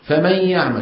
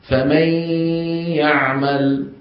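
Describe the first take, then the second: First: The nasal sound is brief, not stretched. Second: The nasal sound is stretched out and long. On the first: This is how it is said in ordinary speech. "يبقون الغنة بالكلام العادي غير ممطوطة" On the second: This is how it is recited in the Quran. "الذي زاده القرآن هو تطويل هذه الغنة"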